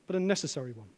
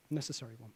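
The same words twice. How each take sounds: First: Said in the usual way. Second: Much softer, lower "Necessary one"; hushed echo. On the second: Real, not acted. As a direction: drop almost to a murmur to land it.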